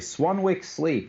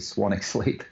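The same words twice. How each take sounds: First: The second W in Swanwick is pronounced. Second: The second W in Swanwick is silent. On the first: It is said this way for listeners unfamiliar with silent letters. "so I always say Swanwick Sleep" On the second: This is the name's actual pronunciation. "even though it's actually Swanwick Sleep"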